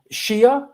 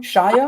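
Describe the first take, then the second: First: Shia said as SHEE-uh; questioned pronunciation. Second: Shia said as SHY-uh; alternative pronunciation. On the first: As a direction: say Shia with an ee in the first syllable. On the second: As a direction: say Shia with a first syllable like "shy". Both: Shown as a demonstration. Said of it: "is that how you pronounce his name?".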